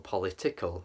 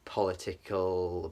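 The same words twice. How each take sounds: First: Said in the usual way. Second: Political said slowly and oddly; odd pronunciation. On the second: Shown as a demonstration. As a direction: drag out political in a strange way. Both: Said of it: "I'm pronouncing that very weird".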